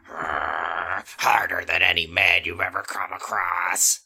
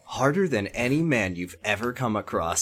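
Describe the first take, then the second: First: Low, slow growl; almost a growl. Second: Said in the usual way. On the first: A narrator's reading. Chris boasts to Danny, almost growling. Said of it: "said Chris in an almost growl". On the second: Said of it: "oh, let me try that again".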